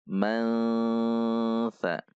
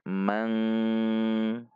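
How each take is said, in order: First: The nasal blends into a following s-like sound. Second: The word ends in an ng sound. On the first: The speaker calls it right. "namun dibaca mansa" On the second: The speaker calls it wrong. "Tidak dibaca mang"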